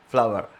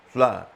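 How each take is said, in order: First: The final r sound is pronounced. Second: The final r sound is dropped. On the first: "But in American, flower, flower, flower, R R comes a bit" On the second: "in British English it is uh, flour, not flower"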